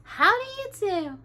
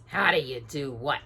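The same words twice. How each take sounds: First: High, sweet greeting; high polite princess voice. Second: Lower, gruff retort; grumpy dwarf. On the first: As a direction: greet them prettily. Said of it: "smiled prettily and said". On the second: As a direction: snap back as a frowning dwarf. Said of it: "answered Grumpy with a frown". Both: A narrator's reading.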